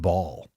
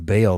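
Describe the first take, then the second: First: The vowel sounds like the one in 'mall'. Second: The vowel sounds like the one in 'mail'. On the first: This is the pronunciation claimed by careful study. "they were saying ball" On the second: This is the familiar, common pronunciation. "instead of saying bail"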